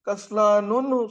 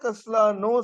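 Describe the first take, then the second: First: The word ends with an extra -un sound. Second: The word ends with a plain -u vowel. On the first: The speaker calls it wrong. "दो पेश से?" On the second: The speaker calls it right. "एक पेश से"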